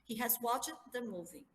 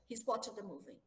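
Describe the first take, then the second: First: He and has are said as two separate words. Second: He and has are merged into one syllable.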